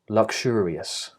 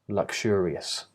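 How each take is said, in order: First: The x consonants are unvoiced, k and sh. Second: The same.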